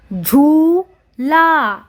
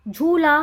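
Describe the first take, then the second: First: "झूला" split as झू... ला; "झूला" with long vowels and a gap between; syllable by syllable. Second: Said in the usual way. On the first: Shown as a demonstration. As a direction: sound out "झूला" very slowly in two parts. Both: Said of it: "उच्चारण करके पढ़ेंगे".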